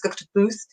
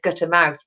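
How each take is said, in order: First: The last part sounds like "booth". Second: The last part sounds like "mouth". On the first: The speaker calls it right. "It's gutter booth" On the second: The speaker calls it wrong. "I've said gutter mouth, but it's not"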